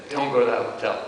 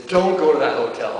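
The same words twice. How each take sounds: First: Said in the usual way. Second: "Don't" stressed first and a little louder; father on the phone to his scared son, stressing "Don't"; father's firm warning. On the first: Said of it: "him saying". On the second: Retold or imitated. Son recalls his father warning him, leaning on "Don't". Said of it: "He says".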